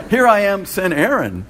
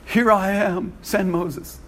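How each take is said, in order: First: Louder, laughing mock volunteer. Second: Said in the usual way. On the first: Preacher joking about passing the job on, laughing and louder. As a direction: deliver the joke through a laugh. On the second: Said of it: "Some people said".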